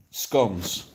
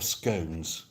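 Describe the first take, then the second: First: "scones" with short o, like "skons"; rhymes with gone. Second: "scones" with long o, like "skohnz", softer; rhymes with stones. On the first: To chat, showing the "skons" way. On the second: To chat, showing the "skohnz" way. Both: Shown as a demonstration. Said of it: "scones or scones".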